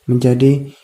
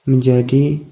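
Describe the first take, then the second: Both takes have the same delivery.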